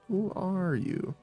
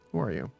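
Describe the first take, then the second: First: It is said in an obnoxious, mocking voice. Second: It is said in a normal voice.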